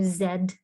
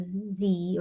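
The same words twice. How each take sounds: First: The letter is said the British way. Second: The letter is said the non-British way.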